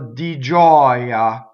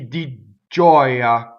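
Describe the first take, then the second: First: The G sound is short and single. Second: The G sound is lengthened and doubled. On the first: The speaker calls it right. "Di is a weak monosyllable of, so it does not double" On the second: The speaker calls it wrong. "it's not going to be"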